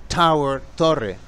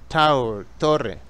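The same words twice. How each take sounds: The two takes are said the same way.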